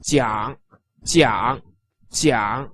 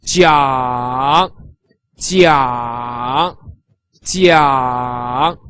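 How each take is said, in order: First: Jiang said quick, low and soft with a brief dip; short low jiang; clipped third-tone jiang. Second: Jiang drawn long and low, dipping and rising; slow, low, dipping jiang for demonstration; third tone jiang. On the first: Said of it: "with a shorter version". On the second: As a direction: stretch jiang through a deep third tone. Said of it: "with the third tone". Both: Shown as a demonstration.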